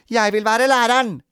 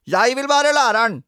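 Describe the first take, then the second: First: High, loud insistence; pushy girl's demand; demanding child. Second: Very high, loud bratty wail; clamouring, insistent boy; naughty boy. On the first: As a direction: claim it like a child in a quarrel. Children quarrel over playing teacher. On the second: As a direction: outdo the other child's demand, louder and higher. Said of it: "sa rampete Robin". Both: A narrator's reading.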